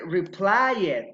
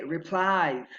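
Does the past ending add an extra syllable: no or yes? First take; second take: yes; no. First: The ending is said as an extra syllable. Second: The ending is a plain d sound. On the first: The speaker calls it wrong. "we don't say reply it" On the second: The speaker calls it right. "we say replied"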